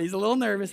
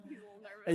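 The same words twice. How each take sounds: First: Said in the usual way. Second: Whispered aside. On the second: Real, not acted. Aside to the audience about his shy son, whispered. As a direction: whisper "He's a little nervous" without voice.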